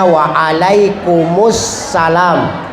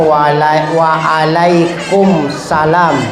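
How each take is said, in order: First: A short u sound links the two words. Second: The words join with no vowel between them. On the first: The speaker calls it right. "maka seharusnya" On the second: The speaker calls it wrong. "Banyak di antara kita yang menjawab salam"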